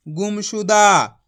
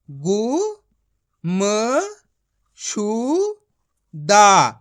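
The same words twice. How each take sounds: First: Said in the usual way. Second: Very slow, each syllable split apart. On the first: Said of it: "तो मिलके बन जाएगा". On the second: Shown as a demonstration. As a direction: sound out गु-म-शु-दा one syllable at a time, stretched. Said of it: "मेरा तरीका देखना है". (अक्षर-अक्षर अलग करके धीरे-धीरे)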